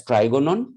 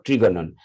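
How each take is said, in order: First: Trigonon said "TRY-go-non", rising at the end; pronunciation variant. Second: Trigonon said "TREE-go-non", falling at the end; alternative pronunciation. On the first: Teacher showing how the term is pronounced, "try" variant of trigonon. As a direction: say trigonon with "try" as first syllable. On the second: Teacher giving the second accepted pronunciation, "tree" variant of trigonon. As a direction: say trigonon with short "tri", not "try". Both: Shown as a demonstration. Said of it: "That is pronounced as".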